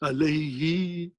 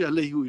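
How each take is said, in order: First: The last syllable ends in an 'i' vowel. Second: The last syllable ends in an 'u' vowel. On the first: The speaker calls it right. "So what we say alayhi" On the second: The speaker calls it wrong. "we cannot say alayhu"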